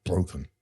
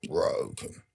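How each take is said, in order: First: Said in the usual way. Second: Breathy whisper, much softer, trailing away; whispered echo. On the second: Real, not acted. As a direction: let the word die out in a broken whisper. Crying on the motorway.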